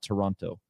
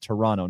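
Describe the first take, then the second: First: The second t sound is clearly pronounced. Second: The second t sound is dropped. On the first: The speaker calls it wrong. "not Toronto" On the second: The speaker calls it right. "Even though it's spelled with the T, you pronounce it Toronto"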